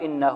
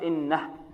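First: The word ends with a long vowel after h. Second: The word ends on a silent h. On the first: The speaker calls it wrong. "لا نقف إنه، هذا خطأ" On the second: The speaker calls it right. "نقف إنه"

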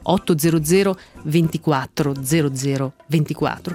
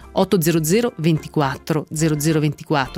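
First: The number is read very slowly. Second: The number is read at a normal pace.

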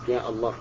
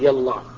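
First: A glottal stop separates ya from Allah. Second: Ya runs straight into Allah without a stop. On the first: The speaker calls it right. "هنا تكون همزة همزة قطع" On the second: The speaker calls it wrong. "ما تقول يالله"

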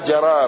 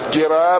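First: The first consonant is followed by an a vowel. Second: The first consonant is followed by an i vowel. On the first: "ويقال بفتحها" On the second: "بالكسر"

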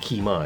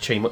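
First: The first word begins with a k sound. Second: The first word begins with a ch sound. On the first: This is the real, original way of saying it. The speaker calls it right. "but it's really [name]" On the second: This is the usual English way of saying it. The speaker calls it wrong. "if we're English, we know it as Chi Mai"

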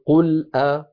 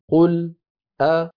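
First: The hamza is fully pronounced right after qul. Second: A brief silent stop comes before the hamza. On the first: "وإما التحقيق" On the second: "وإما السكت"

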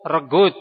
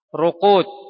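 First: The middle consonant is a hard g sound. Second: The middle consonant is a back q sound.

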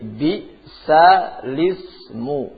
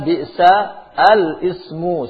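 First: The glottal stop is dropped; lam takes its vowel. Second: The glottal stop before the lam is pronounced. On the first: The vowel is carried over to the lam. "Kalian hilangkan hamzah. Kemudian syakl lam di situ kalian ganti dengan syakl hamzah" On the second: This is the original form of the words. "Tapi aslinya"

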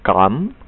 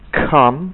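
First: The k is soft, without a puff of air. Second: The k bursts out with a puff of air. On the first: The speaker calls it wrong. "dengan cara yang salah" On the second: The speaker calls it right. "Saya ucapkan dengan perlahan-lahan"

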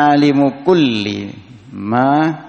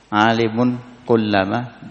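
First: No n sound follows alimu before kulli. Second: An n sound follows alimu before kullama. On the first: "tapi boleh juga dibaca" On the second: "Bisa kan anda baca alimun kullama"

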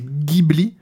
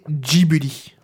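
First: It is said with an Italian pronunciation. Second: It is said with a Japanese pronunciation. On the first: "la prononciation originale italienne" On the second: "à la japonaise"

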